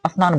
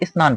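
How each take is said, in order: First: A short a sound comes before the s. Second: A short i sound comes before the s. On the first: The speaker calls it wrong. "अ की उच्चारण आ रहा है जो गलत है" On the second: The speaker calls it right. "इसे स्नान पढ़ेंगे"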